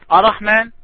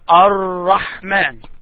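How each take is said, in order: First: The r sound is short and single. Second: The r sound is doubled and held longer. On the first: The speaker calls it wrong. "now you are pronouncing only one Ra" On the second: The speaker calls it right. "it is Ar-Rahman"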